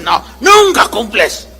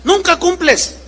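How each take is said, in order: First: Hammed-up husband shouting back; husband's mock yell denying the charge. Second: Mock nagging wife, raised pitch; wife's whine. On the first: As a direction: throw it back at her with a shout. Husband voiced objecting. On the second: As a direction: mimic the wife pouting "Nunca cumples". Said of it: "se pone la señora así".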